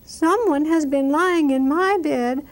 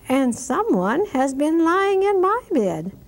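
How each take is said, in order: First: It is said in a little baby voice. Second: It is said in a middle-sized voice.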